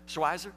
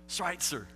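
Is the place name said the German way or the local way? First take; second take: local; German. First: The name is said in the local pronunciation. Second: The name is said in the German pronunciation. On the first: This is how people in the town say it. The speaker calls it wrong. "in Franklin they call it Schweizer because it's Franklin" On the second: This is how the name should be said. The speaker calls it right. "if you pronounce it correctly"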